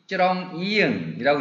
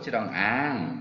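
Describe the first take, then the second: First: The second syllable has a dark vowel. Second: The second syllable has a bright vowel. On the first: The speaker calls it wrong. "읽지 않고" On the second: The speaker calls it right. "밝은 소리로 변음이 된 거죠"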